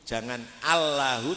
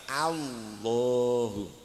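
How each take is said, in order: First: The l is weak and sounds almost like w. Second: The l is full, heavy and clearly articulated. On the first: The speaker calls it wrong. "Kalau lidahnya tidak nempel kan berarti wawu itu" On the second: The speaker calls it right. "lidahnya harus nempel di gusi ya. Suaranya ditebalkan"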